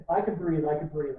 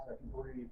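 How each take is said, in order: First: Louder, emphatic "I can breathe"; relieved exclamation. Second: Softer, sighing "I can breathe"; exhausted relief. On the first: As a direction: proclaim it, glad to be alive. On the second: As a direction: let it out like a tired man finally resting. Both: Retold or imitated. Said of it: "collapses on the ground and goes".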